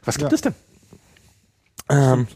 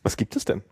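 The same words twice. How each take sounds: First: The question is asked with curious excitement. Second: The question is asked in a calm reading voice.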